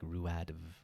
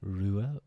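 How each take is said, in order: First: The name ends with an audible d sound. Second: The name ends in a vowel, with no d. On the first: The speaker calls it wrong. "many people go like Ruadv, rude. They get very confused" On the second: The speaker calls it right. "the D is silent in Rua"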